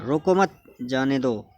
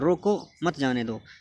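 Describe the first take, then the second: First: There is a pause after रोको मत. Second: There is a pause after रोको.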